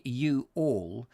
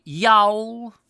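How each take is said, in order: First: Said in the usual way. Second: Y'ALL whined high and loud in mock American; mock a lazy American, running Y'ALL into one loud whiny syllable; high, whiny put-on American accent. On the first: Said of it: "too lazy to say". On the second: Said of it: "in that sort of whiny voice".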